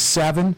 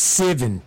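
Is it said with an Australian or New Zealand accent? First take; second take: Australian; New Zealand. First: It is said with an Australian accent. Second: It is said with a New Zealand accent.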